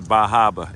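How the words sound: It is said in a New England accent.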